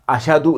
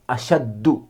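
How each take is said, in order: First: The middle sound is a single plain d. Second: The middle sound is a doubled d. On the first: "अशदु नहीं पढ़ेंगे" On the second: "इसे अशद्दु नहीं पढ़ेंगे"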